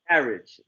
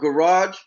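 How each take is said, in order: First: Pronounced with a British accent. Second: Pronounced with an American accent. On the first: This is how people in the UK say it. "They say garage" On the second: This is how the speaker's own people say it. "see how we pronounce the word garage?"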